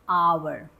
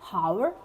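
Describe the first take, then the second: First: No H sound is pronounced at the start. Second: An H sound is pronounced at the start. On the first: The speaker calls it right. "H is silent here also" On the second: The speaker calls it wrong. "That's incorrect"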